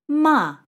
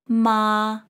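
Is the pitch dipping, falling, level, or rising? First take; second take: falling; level. First: The pitch falls sharply from high to low. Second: The pitch stays high and level. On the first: It means to scold. "And the fourth tone" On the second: It means mother. "the first tone here would be read as ma"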